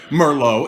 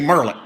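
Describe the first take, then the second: First: It is said the way Californians say it. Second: It is said the way Arkansans say it. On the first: "They say Merlot in California and most of the rest of the country" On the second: "here in Arkansas, sometimes we say Merlot just because we can"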